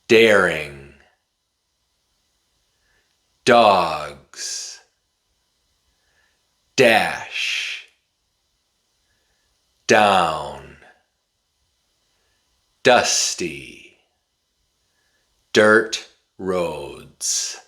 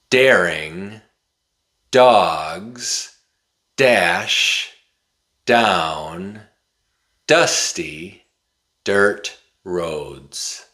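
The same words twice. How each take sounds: First: It is said slowly, word by word. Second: It is said at a moderate, quicker speed.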